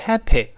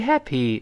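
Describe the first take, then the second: First: The final vowel is not a closed ee sound. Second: The final vowel is a closed ee sound. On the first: The speaker calls it wrong. "不要读happy" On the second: The speaker calls it right. "最后那个y 是收口型发e"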